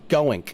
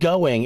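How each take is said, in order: First: The word ends with a hard 'nk' sound. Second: The word ends with a soft 'ng' sound. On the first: "It's like you're saying ink instead" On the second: "It's not going"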